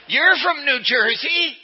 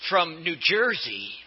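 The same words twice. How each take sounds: First: Put-on "You're from New Jersey" high, loud, slow in a playful New Jersey accent; mock New Jersey accent. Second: Said in the usual way. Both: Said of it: "Your accent gives you away".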